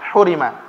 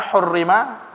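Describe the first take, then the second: First: The r sound is short, single. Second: The r sound is held long, doubled. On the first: "tanpa tasdid" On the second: "dengan memakai tasdid"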